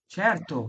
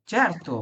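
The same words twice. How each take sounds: First: Certo again with ch, falling; soft C repeated. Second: Certo with ch onset; soft C as ch. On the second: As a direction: say certo as chair-to. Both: Shown as a demonstration. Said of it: "এখানে বললাম যে".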